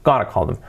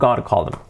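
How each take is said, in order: First: Going to is reduced to a quick gonna. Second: Going to is reduced to a quick gonna.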